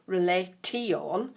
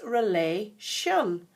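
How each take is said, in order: First: The ending is said with a clear T sound. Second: The ending is said with an SH sound. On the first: The speaker calls it wrong. "we don't say tion" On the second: The speaker calls it right. "it's relation. Kind of sounds as if there's an S H in the middle"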